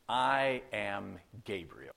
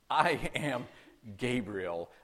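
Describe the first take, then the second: First: It is said plainly, without special force. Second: It is said with strong, forceful emphasis.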